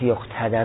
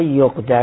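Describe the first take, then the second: First: یقتدر with a clear t, as yaqtadar. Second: یقدر said plainly, without the ت; یقدر with no t sound, as yaqdar; plain form yaqdar. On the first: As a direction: stress the ت in یقتدر. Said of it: "چرا با ت آورد؟". (یقتدر با ت واضح) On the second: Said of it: "یقتدر رو گفت". (یقدر ساده و بدون ت) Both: Shown as a demonstration.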